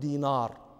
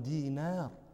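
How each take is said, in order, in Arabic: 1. صوت النون ثقيل وغليظ. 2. صوت النون خفيف ورقيق. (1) "لا نقول دينار، هذا نطق عجمي" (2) "النون حرف رقيق ... نحن عرب نقول"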